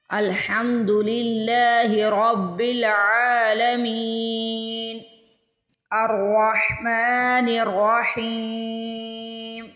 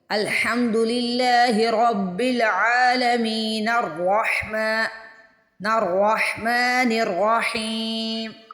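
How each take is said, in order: First: There is a pause between the two verses. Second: The two verses are joined without a pause.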